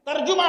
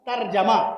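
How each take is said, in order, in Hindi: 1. दूसरे अक्षर में 'u' स्वर है। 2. हर अक्षर में 'a' स्वर है। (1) "तर्जुमा ना कहा कीजिए" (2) "सब पे जबर"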